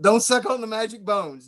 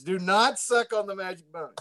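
First: Said in the usual way. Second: "not" set apart and punched; stress on NOT. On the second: Shown as a demonstration. Warning friend off the magic bones, stress on "not". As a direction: lean hard on "not" as a warning. Joking warning repeated with emphasis.

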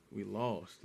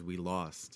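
First: Much lower, much softer, crushed; Captain America admitting total defeat, softly. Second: Low, soft, defeated murmur; quietly crushed Captain America. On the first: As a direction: barely get the words out after the sigh. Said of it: "deep defeated breaths". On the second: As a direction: say it like all hope is gone. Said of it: "Captain America says". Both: Retold or imitated.

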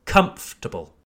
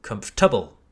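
First: "Comfortable" as KUMF-tə-bəl; first-syllable stress. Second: "comfortable" as kumf-TUH-bəl; wrong-syllable stress. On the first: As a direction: hit KUMF in "Comfortable", let the rest fall away. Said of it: "emphasis on the first syllable". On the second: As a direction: misplace the stress in "comfortable" onto the middle syllable. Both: Shown as a demonstration.

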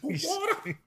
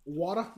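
First: Squeaky high falsetto Water?; mock squeal. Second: Surprised. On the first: Mocking the answer. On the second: Real, not acted. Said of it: "I, I said water".

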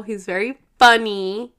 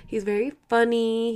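First: Louder burst on funny; said really loud. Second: Said in the usual way. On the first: Real, not acted. Praising her husband to viewers, suddenly loud. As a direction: blurt it out loud. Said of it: "I don't know why I just said that really loud". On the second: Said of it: "Sorry, I don't know why I just said that really loud".

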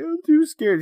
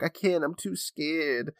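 First: Much higher, whiny mock sob; I'm too scared in a high, whiny fake-crying child voice; fake crying kid. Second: Put-on slow, quiet little-boy scared; I can't, I'm too scared said slowly and softly like a scared little boy; son too scared. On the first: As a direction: whine it like a kid faking tears. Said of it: "fake crying about it". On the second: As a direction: drag it out like a timid kid. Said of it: "look down the hallway and be like".

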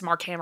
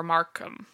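First: Markham with a full "ham" ending; pronounced Mark-HAM. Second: Markham with a reduced "kum" ending; pronounced MARK-um. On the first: Podcaster unsure of a surname, Markham said as "Mark-ham". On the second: Podcaster offering the other reading, Markham said as "Markum". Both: Shown as a demonstration. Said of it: "I don't know if it's".

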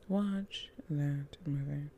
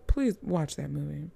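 First: Soft whispered plea, slow and unvoiced; urgent whisper. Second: Said in the usual way. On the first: Shown as a demonstration. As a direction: lean in and whisper the recommendation.

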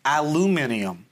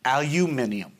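First: ALUMINIUM as al-oo-MIN-ee-um; usual pronunciation. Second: ALUMINIUM as al-you-MIN-ee-um; proper pronunciation. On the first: Speaker shows friend their normal version, al-oo-MIN-ee-um. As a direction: say aluminium with "loo", no "you". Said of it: "I will normally say". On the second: Speaker gives friend the proper version, al-you-MIN-ee-um. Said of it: "proper pronunciation is". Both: Shown as a demonstration.

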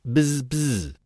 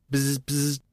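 First: A mouse mimicking the bee's buzz; mimicked buzz. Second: A peevish little buzzing squeak. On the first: Mouse mocking the bee to her face, a mimicked buzz. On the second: A narrator's reading. Bee answering the mouse, a peevish squeak. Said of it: "replied Babbity Bumble in a peevish squeak".

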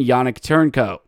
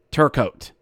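First: Turncoat said with an n; mispronounced name. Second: Turcoat with no n, tur-coat; corrected name. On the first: Host reading roster, says Turncoat with an n. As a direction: Yannick Turncoat, wrongly with turn. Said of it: "Not Turncoat". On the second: Host correcting the roster name, Turcoat as tur-coat. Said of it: "Not Turncoat, Turcoat". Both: Shown as a demonstration.

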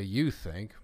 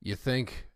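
First: You think with you leaned on and the pitch falling; you think, pointing the word you at others; stress on you. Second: Said in the usual way. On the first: Real, not acted. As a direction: put the weight on you in you think. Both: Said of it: "I say you think".

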